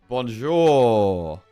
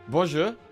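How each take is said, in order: First: The second syllable is held longer. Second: The second syllable is short and quick. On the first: The speaker calls it right. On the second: The speaker calls it wrong.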